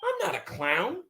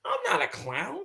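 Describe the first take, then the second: First: I'm not a clown in a high squeal; hammed-up high-pitched protest; high mock protest. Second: Said in the usual way. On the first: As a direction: push the denial up high, mock hurt. Mock outrage at being called clown.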